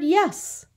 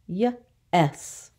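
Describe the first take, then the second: First: Said in the usual way. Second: "Yes" split as yuh, then ess; sounded out. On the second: Shown as a demonstration. Teacher isolating the short vowel, "Yes" sounded out in two parts. Phonics lesson, word broken up.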